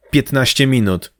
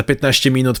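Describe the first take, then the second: First: Slow, emphatic repeat of "Piętnaście minut"; firm. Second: Said in the usual way. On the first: A narrator's reading. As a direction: lay down the deadline, word by word. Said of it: "powiedziała stanowczo Krys". (stanowczo, powoli)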